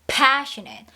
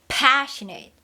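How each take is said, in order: No difference in how they are said.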